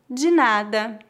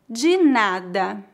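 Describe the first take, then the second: First: It is said at natural speed. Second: It is said very slowly. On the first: "2 vezes mais naturalmente" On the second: "uma vez bem devagar"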